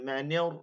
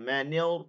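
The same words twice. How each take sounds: The two takes are said the same way.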